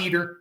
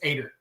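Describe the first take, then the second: First: The name starts with a vowel other than A. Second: The name starts with an A vowel sound. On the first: The speaker calls it wrong. "it's not Eater" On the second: The speaker calls it right. "pronounce it with an A"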